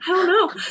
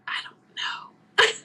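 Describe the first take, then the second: First: Higher, voiced with a laugh; amused, pitched-up retold confusion; laughing bewilderment. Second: Slow, whispered admission of being lost; hushed, drawn-out retold answer; bewildered whisper. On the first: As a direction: laugh helplessly through the answer. Repeats answer, laughing at it. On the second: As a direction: whisper it slowly, at a loss.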